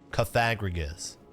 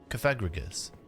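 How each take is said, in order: First: It is said with an American pronunciation. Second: It is said with a British pronunciation. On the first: "An American person would say coffin" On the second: "a British person would say coffin"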